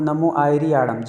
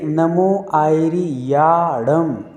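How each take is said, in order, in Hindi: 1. अंतिम शब्द जल्दी-जल्दी और कटा हुआ बोला गया है। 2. अंतिम शब्द खुले मुँह से पूरी तरह बोला गया है। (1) "जल्दी में हम लोग आड़ा कर देते हैं सब कुछ" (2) "पूरा शब्द मुंह खुलना चाहिए"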